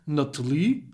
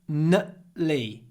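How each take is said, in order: First: The T is pronounced as a clear T. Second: The T is replaced by a glottal stop. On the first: The speaker calls it wrong. "instead of nutly" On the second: The speaker calls it right. "try to do the glottal stop"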